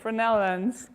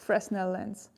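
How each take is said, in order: First: The S in the name is silent. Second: The S in the name is pronounced. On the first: The speaker calls it right. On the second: The speaker calls it wrong.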